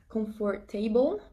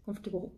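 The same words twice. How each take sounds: First: Every syllable, including the 'or', is pronounced. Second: The 'or' syllable is dropped, making it shorter. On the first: The speaker calls it wrong. "ça se dit pas en anglais" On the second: The speaker calls it right. "Ils vont enlever le, le O R en fait"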